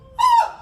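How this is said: The sound is pushed out with force. The speaker calls it right. "tapi oh. ... Didorong"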